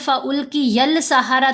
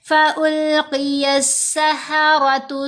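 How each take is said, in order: First: An L sound is pronounced before the S. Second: No L sound is heard before the S. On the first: The speaker calls it wrong. "अगर यहाँ पर ... तो पढ़ें तो ये गलत है, लाम नहीं पढ़ी जानी" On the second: The speaker calls it right. "कैसे पढ़ेंगे?"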